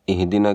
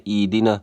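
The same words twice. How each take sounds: First: اہدنا as "ih-dina", h sounded; correct h in اہدنا. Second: ایدنا as "ee-dina"; long "ee" and no h in ایدنا; mistaken dropped h. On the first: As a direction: breathe a clear h before the d in اہدنا. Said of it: "کے بجائے ایدنا". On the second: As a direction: say ایدنا with h replaced by y-glide. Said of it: "یا پڑھتے ہیں". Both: Shown as a demonstration.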